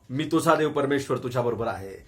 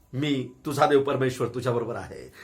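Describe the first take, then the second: Both takes have the same delivery.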